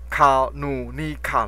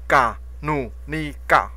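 First: The word begins with a hard k sound. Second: The word begins with a soft g sound.

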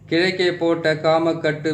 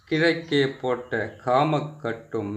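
First: The line is recited quickly. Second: The line is recited slowly and deliberately. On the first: "இந்த மந்திரத்தை வந்து கொஞ்சம் வேகமாக சொல்லிடுறேன்" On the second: "பொறுமையாக சொல்கிறேன்"

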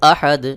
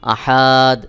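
First: The vowels in the word are kept short. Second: A vowel in the word is drawn out long. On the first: The intended meaning is kept. The speaker calls it right. "সহি উচ্চারণ হলো উল হুয়াল্লাহু আহাদ" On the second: The meaning of the word changes. The speaker calls it wrong. "অনেকেই আহাদ এইভাবে টান দিয়ে উচ্চারণ করে, কোনোভাবেই এখানে টান দেওয়া যাবে না।"

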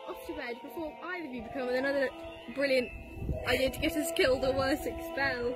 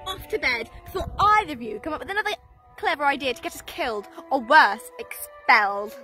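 First: It is said in the speaker's own voice. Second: It is said imitating Hermione's voice.

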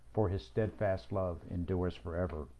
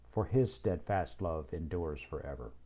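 Both takes have the same delivery.

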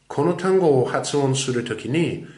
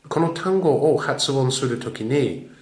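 Both takes have the same delivery.

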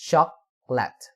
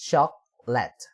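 No difference in how they are said.

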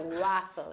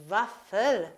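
First: The word begins with a W sound. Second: The word begins with a V sound. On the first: The speaker calls it wrong. "So it's not a waffle" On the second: The speaker calls it right. "We say double V"

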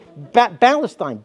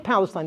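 First: The word starts without a P sound. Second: The word starts with a P sound. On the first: "They say Palestine. They can't say P" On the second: "They can't say Palestine"

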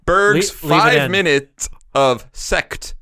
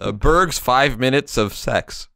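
First: The last word has a clearer T sound. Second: The last word has no clear T sound.

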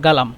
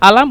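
First: The word starts with a g sound. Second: The word starts with a glottal stop. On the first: "গয়ন হিসাবে ব্যবহার করে" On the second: "কফকে সবসময় মিশরিরা হামজা বলে"

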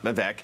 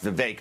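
First: The last syllable does not rhyme with 'ache'. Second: The last syllable rhymes with 'ache'. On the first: The speaker calls it wrong. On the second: The speaker calls it right. "It rhymes with toothache"

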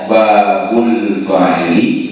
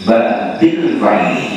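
First: The first word ends in an u vowel. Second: The first word ends in an i vowel.

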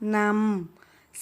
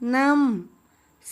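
First: The syllable is said on a level mid tone. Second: The syllable is said on a falling tone. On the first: "เสียงสามัญ" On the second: "เสียงโท"

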